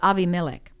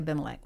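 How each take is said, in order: First: The second consonant is a v sound. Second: The second consonant is a b sound. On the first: This is the original pronunciation. The speaker calls it right. "but it's Avimelech" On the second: This is the usual everyday pronunciation. The speaker calls it wrong. "We usually say Abimelech"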